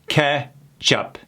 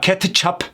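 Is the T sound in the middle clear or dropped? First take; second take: dropped; clear. First: The T sound is dropped. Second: The T sound is clearly pronounced. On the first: The speaker calls it right. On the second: The speaker calls it wrong.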